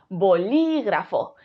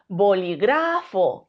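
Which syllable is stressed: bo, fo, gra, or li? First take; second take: li; gra. First: The stress is on the second syllable. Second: The stress is on the third syllable. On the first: The speaker calls it right. "Si creemos que es li" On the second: The speaker calls it wrong. "Si creemos que es gra"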